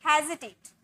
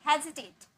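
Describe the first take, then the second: The two takes are said the same way.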